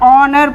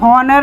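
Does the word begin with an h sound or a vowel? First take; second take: vowel; h sound. First: The word begins directly with a vowel. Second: The word begins with an h sound. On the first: The speaker calls it right. "ऑनर पढ़ते हैं" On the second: The speaker calls it wrong. "हम इसे हॉनर नहीं पढ़ते"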